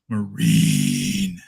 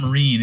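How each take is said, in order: First: The vowel is deep and guttural from the chest. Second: The vowel is said plainly, not from the chest. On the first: The speaker calls it right. "it had to be like you know guttural" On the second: The speaker calls it wrong. "It's not Marine"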